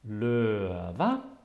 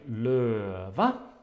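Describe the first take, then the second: Both takes have the same delivery.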